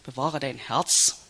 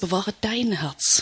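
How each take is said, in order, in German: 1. Die Betonung liegt auf dem Wort bewahre. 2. Die Betonung liegt auf dem Wort dein. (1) "Das kannst du ja schön unterschiedlich betonen" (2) "Man kann es auch so betonen"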